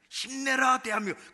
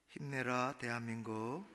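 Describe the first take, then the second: First: It is said loudly with bursting force. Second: It is said softly with little energy. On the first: The speaker calls it right. "아주 목소리 딱 힘을 주고 앞을 향해 딱 터지도록" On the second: The speaker calls it wrong. "그러면 안 됩니다"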